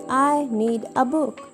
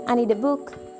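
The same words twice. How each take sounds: First: Need a is said as two full words. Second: Need a is reduced to nida. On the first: "Instead of saying" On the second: "you may say"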